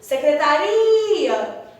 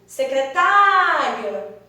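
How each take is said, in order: First: The stress falls on the syllable ri. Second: The stress falls on the syllable tá. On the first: "agora o ri é bem forte" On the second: "esse tá é a sílaba tônica, aquela que teve a maior intensidade"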